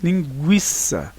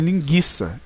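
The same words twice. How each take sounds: First: The u after the g is pronounced. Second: The u after the g is silent. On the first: The speaker calls it right. "e sim linguiça" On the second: The speaker calls it wrong. "para as pessoas não então pronunciarem linguiça"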